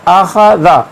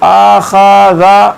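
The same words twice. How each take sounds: First: The vowels are kept short. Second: The vowels are drawn out long. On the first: The speaker calls it right. "सही है। न अलिफ को हमज़ा को खींचना है, न खा को, न ज़ाल को।" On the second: The speaker calls it wrong. "अब इसको आखाज़ा पढ़ना गलत है"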